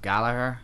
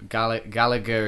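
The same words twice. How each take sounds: First: The name is said the Irish way. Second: The name is said the English way. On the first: "if you say Gallagher in an Irish accent, it comes out as Gallagher" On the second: "generally how like English people will say it"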